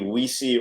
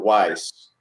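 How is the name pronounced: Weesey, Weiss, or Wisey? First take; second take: Weesey; Weiss. First: Two syllables, the first vowel like 'ee'. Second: One syllable, the vowel like 'eye'. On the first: "the way it looks is either it should be Weesey" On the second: "or Weiss"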